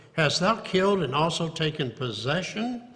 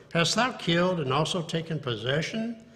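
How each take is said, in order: Both takes have the same delivery.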